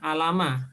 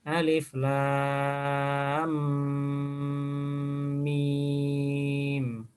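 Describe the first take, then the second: First: The letters are blended into one short word. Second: Each letter is named separately as its own name. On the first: The speaker calls it wrong. "bukan alama" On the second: The speaker calls it right. "dibaca hurufnya"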